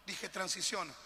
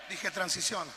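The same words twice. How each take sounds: First: Said in the usual way. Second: "transiciona" shouted as a firm order; preacher shouting "transiciona" to push them; shouted command. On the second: Shown as a demonstration. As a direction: bark "transiciona" at the congregation.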